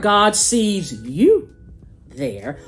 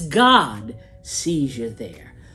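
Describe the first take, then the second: First: The stress falls on the word you. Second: The stress falls on the word God.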